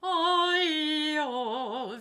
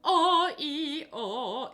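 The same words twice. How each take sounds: First: "Oh" started on air, no glottal stop; breathy onset. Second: "Oh" started with a hard glottal stop; glottal onset. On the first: Teacher demonstrates right onset on air, elastic. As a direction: release breath into "Oh" smoothly. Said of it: "Very elastic". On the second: Teacher demonstrates the wrong glottal onset, sung. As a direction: hit "Oh" with a hard catch in the throat. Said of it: "I'm not going". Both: Shown as a demonstration.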